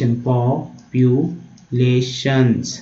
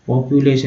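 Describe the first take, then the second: First: "populations" very slow, in separate syllables; broken-down pronunciation. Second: Said in the usual way. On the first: Shown as a demonstration. Teacher sounding it out for learners, very slow split "populations". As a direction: break "populations" into po-pyu-lay-shuns with long gaps. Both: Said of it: "ऐसे तोड़ के पढ़ना है".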